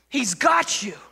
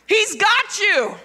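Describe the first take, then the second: First: Said in the usual way. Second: High, loud, slow declaration; emphatic proclamation. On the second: Real, not acted. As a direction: proclaim it slowly at full force. Climax line, then repeated calmly.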